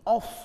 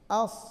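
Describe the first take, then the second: First: The sound is made with the lips. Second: The sound is made with the tongue tip. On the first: The speaker calls it wrong. "Biasanya orang gimana? ... Padahal itu salah" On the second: The speaker calls it right. "Di lidah bertemu dengan gusi bawah"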